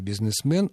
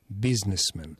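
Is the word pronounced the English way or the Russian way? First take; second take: Russian; English. First: It is pronounced as a Russian word. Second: It is pronounced as an English word. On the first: "В русском языке" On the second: "в английском"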